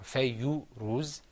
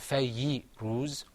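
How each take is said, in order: First: A short u vowel follows the y sound. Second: A short i vowel follows the y sound. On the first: "or fayyu ruz" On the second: "or fayyi ruz"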